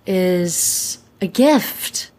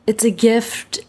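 First: Said in the usual way. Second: Whispered echo. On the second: Real, not acted. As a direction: repeat "It's a gift" in a whisper. Says it, then repeats it whispered.

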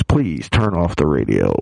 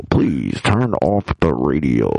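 First: Pleading. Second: Slow, low, earnest plea; pleading. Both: Real, not acted. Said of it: "if my wife's listening with the kids".

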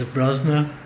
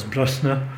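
First: Brosna with a voiced z, "BROZ-na"; outsiders' pronunciation. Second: Brosna with a crisp s, "BRUSS-na"; local pronunciation. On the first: Storyteller listing pronunciations, Brosna with a z. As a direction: buzz the s in Brosna like a z. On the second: Storyteller listing pronunciations, Brosna as BRUSS-na. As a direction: keep the s of Brosna unvoiced, vowel short. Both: Shown as a demonstration. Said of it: "there's three pronunciations".

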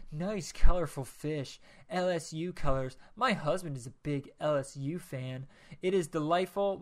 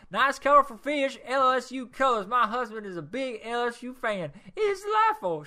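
First: Said in the usual way. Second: Rereading the review in a high, loud put-on lady's voice; high woman's voice.

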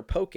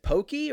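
First: "poke" rhyming with okay; pronounced poh-kay. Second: POKEY said with a "kee" ending; "pokey" rhyming with okey; pronounced pokey. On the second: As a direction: end "pokey" on an ee sound. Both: Shown as a demonstration. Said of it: "is it pokey or poke".

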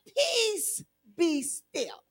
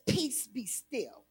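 First: Calm command. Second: Very soft and slow, peace be still; soft and slow calm command; hushed command. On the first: Retold or imitated. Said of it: "all God did was say". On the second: Shown as a demonstration. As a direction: let the three words settle softly. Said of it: "Three words".

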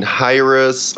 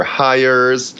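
First: "Hyrus" with the r opening the second syllable; accepted pronunciation. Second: "Hires" run together like "hires"; alternative pronunciation. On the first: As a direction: give "Hyrus" a clear second syllable, russ. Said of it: "it's somewhere between". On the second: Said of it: "it's somewhere between Hyrus or Hires". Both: Shown as a demonstration.

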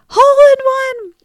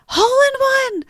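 First: Put-on high and louder, triumphant child yell; high, loud victory cry of a boy; excited kid shout. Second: Put-on high, delighted child calling out; high-pitched happy shout of a boy; excited kid call. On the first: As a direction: shout it out, thrilled. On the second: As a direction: sing it out like a proud kid. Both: Son calls out his golf success.

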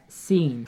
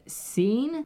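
First: "seen" as a falling statement, with a long ee; "seen" let fall, accepting the mistake; giving in. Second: "Seen" pitched high and rising, for the name Sean; high, questioning "Seen", with a long ee; puzzled question. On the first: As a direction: confirm the wrong name "seen" at ordinary pitch. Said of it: "And then he's like". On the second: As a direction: query "Seen" as if checking an odd name. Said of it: "the delivery guy said". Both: Retold or imitated.

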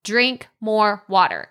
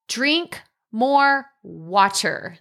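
First: Drink more water again slowly, stress on drink; restated tip. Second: Drink more water spoken very slowly, each word weighted; slow emphatic tip. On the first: Host to listeners, repeating tip one with stress on drink. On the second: Host to listeners, announcing tip one slowly and firmly. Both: Shown as a demonstration. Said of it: "This is number one".

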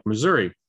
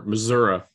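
First: Said in the usual way. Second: Missouri ending in an "uh" sound; variant pronunciation. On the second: Shown as a demonstration. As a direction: say Missouri as "muh-ZUR-uh". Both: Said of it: "as some people like to say".

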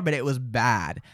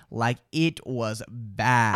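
First: Said in the usual way. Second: "bad" stretched long and low; slow, low stress on "bad"; drawn-out emphasis. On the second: Real, not acted. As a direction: drag out "bad" for weight. Repeats it for emphasis.

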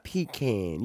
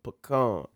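First: Slow PEE-can for pecan. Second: Pecan with open final KAHN; Pecan as puh-KAHN. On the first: Host rejecting this pronunciation, pecan as PEE-can. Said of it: "Not pecan". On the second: Host telling ladies and gentlemen, Pecan as puh-KAHN. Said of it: "that's how it's pronounced". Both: Shown as a demonstration.

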